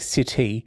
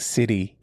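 First: The middle consonant is a crisp T sound. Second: The middle consonant is a soft D-like sound. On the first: This is how British people say it. "British people say city" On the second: This is how Australians say it. "I was still saying city. Like, it's got a D in it"

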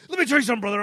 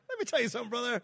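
First: It is said in an intense, serious way. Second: It is said in a smiling, cheerful way.

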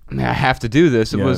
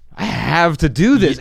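First: It sounds reluctant, like a burdensome duty. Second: It sounds eager, with marked emphasis. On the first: The task is an obligation. The speaker calls it wrong. "It wasn't" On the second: The task is a privilege one is grateful for. The speaker calls it right. "if you italicize your inflection there, all of a sudden it changed everything"

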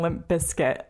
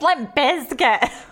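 First: Bizkit is said with an s sound. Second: Bizkit is said with a z sound. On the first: The speaker calls it wrong. "people were saying Limp Bizkit, and I remember that really annoying me" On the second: The speaker calls it right. "You gotta pronounce the Z"

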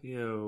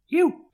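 First: The pitch goes down on the word. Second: The pitch goes up on the word. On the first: The show is winding down. The speaker calls it right. "I need a downward inflection on it" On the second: The show is still going. The speaker calls it wrong. "Because you's a bit of an upper"

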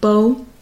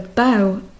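First: The vowel is a long O, rhyming with 'go'. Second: The vowel is an OW sound, rhyming with 'cow'. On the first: It is a ribbon or the stick used to play a violin. "with this long O sound that I mentioned" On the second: It is the front part of a ship or boat. "But a bow would be a part of a ship or a boat"

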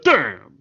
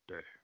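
First: It is said in a big, exaggerated way. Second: It is said in a low, serious way. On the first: "Instead of damn" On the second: "he could have done a more serious damn"

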